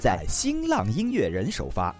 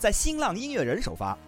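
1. 这句话说得慢。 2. 这句话说得快。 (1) "我们再慢慢来一遍" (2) "您没听清楚吧？"

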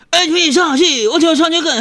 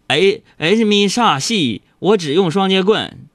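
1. 字说得含糊，连在一起。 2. 字说得清楚，咬字分明。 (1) "说的太快，或者是口齿不清" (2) "魔法咒语是这样的"

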